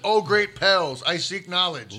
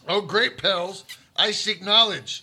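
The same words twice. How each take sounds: First: It is read in a calm way. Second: It is read in an aggressive way.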